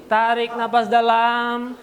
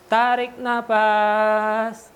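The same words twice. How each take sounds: First: Slow breathing cue. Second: Very slow inhale cue; slow breathing cue. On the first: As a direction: stretch it out, slow. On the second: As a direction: draw the words out long. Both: Shown as a demonstration. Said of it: "breathing exercise instruction".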